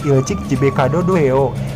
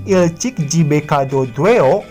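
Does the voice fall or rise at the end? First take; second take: fall; rise. First: The pitch falls at the end. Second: The pitch rises at the end. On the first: It grants permission. "Berbeda dengan kalimat pernyataan" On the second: It asks for permission. "untuk kalimat pertanyaan saat mengucapkan akhiran aoheo, intonasinya harus naik ya"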